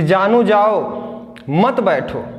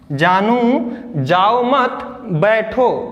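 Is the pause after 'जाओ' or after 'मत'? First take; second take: after जाओ; after मत. First: The pause comes after 'जाओ'. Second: The pause comes after 'मत'.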